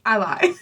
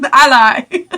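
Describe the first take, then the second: First: Said in the usual way. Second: Laughing it out loud. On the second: Real, not acted. Correcting herself about the shirt, laughing. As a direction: crack up mid-phrase.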